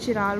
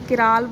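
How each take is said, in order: First: The word begins with a ch sound. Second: The word begins with a k sound. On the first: "चिराल बोल दो" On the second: "किराल बोल दो"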